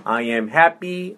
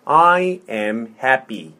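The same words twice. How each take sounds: First: Said in the usual way. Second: Slow, word by word; slow model. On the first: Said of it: "천천히". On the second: Shown as a demonstration. Teacher modelling "I am happy" for repetition, slowly. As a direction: space out each word for a learner. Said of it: "천천히. 자, 해볼게요".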